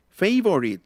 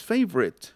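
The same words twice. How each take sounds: First: "favorite" said the Spanish way, feɪ-bo-rit; "favorite" with a full Spanish o and tapped r; wrong favorite. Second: "favorite" said fast as FEB-rit, middle vowel dropped; "favorite" clipped to two beats; right favorite. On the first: Teacher shows students the wrong way: "favorite" spelled out. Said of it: "No es favorite". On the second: Teacher shows students the right way: "favorite" as FEB-rit. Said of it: "sino es favorite". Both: Shown as a demonstration.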